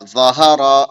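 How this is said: The syllables are joined into one smooth word. "फिर मिलाएंगे"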